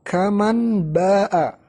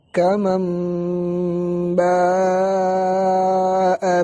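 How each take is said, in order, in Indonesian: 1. Bunyi n dibaca jelas sebelum b. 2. Bunyi n berubah menjadi m sengau sebelum b. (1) "bukan kaman ba'a, karena ini izhar" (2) "contoh dari iqlab"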